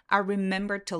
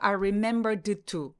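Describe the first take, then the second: First: The d and t merge into one sound. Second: The d and t are sounded separately. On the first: The speaker calls it right. "이렇게 소리 내주시면 돼요" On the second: The speaker calls it wrong. "I remembered to 이렇게 발음하지 않는 거예요"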